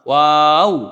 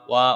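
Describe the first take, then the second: First: The name ends with a w sound. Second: The name ends on an open vowel. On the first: The speaker calls it right. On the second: The speaker calls it wrong.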